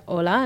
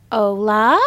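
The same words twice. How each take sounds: First: Said in the usual way. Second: "Hola" in halting, drawn-out syllables, louder than the model; earnest, questioning "Hola", each syllable stretched; child learner's attempt. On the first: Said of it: "I was trying to teach her the basics". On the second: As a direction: imitate a beginner carefully sounding out "Hola". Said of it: "And she's like".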